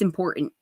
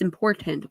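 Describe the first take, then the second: First: The T in the middle is soft. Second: The T in the middle is hard. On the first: "they'll say it's important" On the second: "it's important with a hard T"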